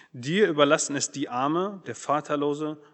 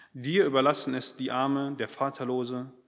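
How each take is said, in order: The two takes are said the same way.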